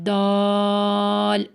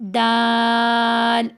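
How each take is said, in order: First: The vowel sounds heavy and full. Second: The vowel sounds light and thin. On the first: "आखिरी वाली में मेरा आवाज़ आवाज़ मोटी थी, मुंह गोल था" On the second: "पहली दो में मेरी आवाज़ बारीक थी, मुंह चौड़ा था"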